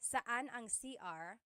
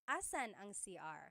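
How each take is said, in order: First: The first word is shortened, starting with s. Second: The first word is shortened, starting with a. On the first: "people shorten it" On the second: "a short way to say it"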